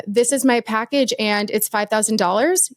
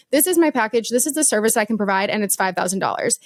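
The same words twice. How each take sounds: First: Rising tune on dollars, unsure; five thousand dollars said as a question; question inflection on price. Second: Falling tune on dollars, no lift; firm statement. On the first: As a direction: let dollars float up, asking approval. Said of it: "you're asking someone to validate". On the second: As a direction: land five thousand dollars flat and final. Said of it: "it's a statement". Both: Shown as a demonstration.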